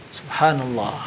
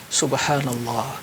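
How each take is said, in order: No difference in how they are said.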